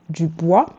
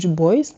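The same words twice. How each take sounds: First: The name is said with French pronunciation. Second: The name is said with American pronunciation.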